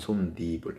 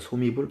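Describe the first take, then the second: First: An n sound is added before the second syllable. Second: No n sound is added before the second syllable. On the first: The speaker calls it right. "발음이 솜이불이 아니고 솜니불이에요" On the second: The speaker calls it wrong. "솜이불 아니고"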